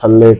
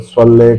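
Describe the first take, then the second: First: It begins with a plain, light s sound. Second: It begins with a heavy, throaty emphatic s sound. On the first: The speaker calls it wrong. "स्वाद की आवाज़ नहीं निकालते, सीन की निकालते" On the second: The speaker calls it right. "स्वल्ले वैसे ही करता हूँ कि स्वाद की आवाज़ निकले"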